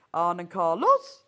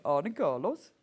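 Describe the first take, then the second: First: Exaggerated Norwegian lilt, "Carlos" swooping up at the end; mock Norwegian accent, louder, pitch climbing on "Carlos"; rising Norwegian accent. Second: Lightly put-on Norwegian accent, lifted ending; attempted Norwegian accent. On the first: Shown as a demonstration. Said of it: "Norwegian has a distinctive rising pitch". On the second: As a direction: slip into a mild mock Norwegian accent. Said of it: "I always end up saying".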